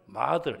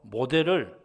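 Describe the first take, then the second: First: It sounds like American 'ma-dl', with an open a. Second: It sounds like Korean 'mo-del', with a clear o.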